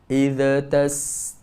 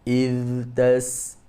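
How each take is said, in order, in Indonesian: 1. Ada getaran vokal tambahan setelah kata pertama. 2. Bunyi akhir kata pertama mengalir lembut. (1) "bila dia menjadikan huruf zal itu tawallud" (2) "kita baca yang betul macam mana? Iz"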